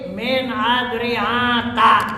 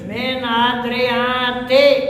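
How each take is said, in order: First: The word ends in a short a, no n. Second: The word ends in a short i, no n. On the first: It is treated as a diptote name. "adalah sebagai isim ghair munsharif" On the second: It keeps the plural vowel but drops nunation. "yang kedua min adriati tanpa tanwin"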